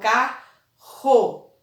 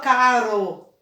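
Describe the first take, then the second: First: The middle R is a strong, rough sound. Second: The middle R is a weak, light tap. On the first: The speaker calls it right. "eu falo carro" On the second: The speaker calls it wrong. "Eu não falo carro"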